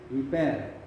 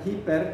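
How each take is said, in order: First: The word begins directly with the vowel. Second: The word begins with an h sound. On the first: The speaker calls it right. "tapi hiper" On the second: The speaker calls it wrong. "dibaca bukan hiper"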